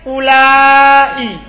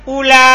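First: A glottal stop follows the long a sound. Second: The word ends on the a sound alone. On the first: This is the form used in the Hijaz. "Mat itu maksudnya ada hamzah setelah A" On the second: This is the form used by the Tamim tribe. "Tidak ada hamzahnya"

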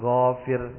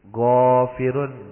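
First: The word ends on -r without -un. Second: The word ends with a final -un sound. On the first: The reader stops on this word. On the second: The reading continues without stopping.

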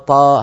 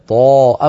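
First: The consonant is light, going straight out the mouth. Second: The consonant is heavy, resonating against the palate. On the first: The speaker calls it wrong. "أما إذا قلنا طاء ود الطاء طاء هذا الصوت خرج مباشرة إلى خارج الفم" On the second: The speaker calls it right. "طاء بضغط الصوت إلى قبة الحنك إلى سقف الحلق، لابد من ذلك"

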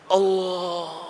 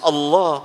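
First: The word is said with a husky, played-with voice. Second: The word is said in a plain, ordinary voice. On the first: This is how some people stylize the word. The speaker calls it wrong. "ada yang mengucapkan Allah itu Allah" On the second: This is the normal way to say the word. The speaker calls it right. "Biasa Allah"

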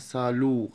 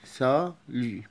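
First: The final vowel is a plain 'oo' sound. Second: The final vowel is between 'oo' and 'ee'. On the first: The speaker calls it wrong. "محدش يقول عليها سالو غلط" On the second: The speaker calls it right. "وسط بين الأو والإي"

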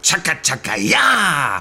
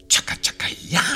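First: The cheer is said boldly, with more energy. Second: The cheer is said timidly, with little energy. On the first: The speaker calls it right. "Gleich nochmal" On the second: The speaker calls it wrong. "das war noch zu zaghaft"

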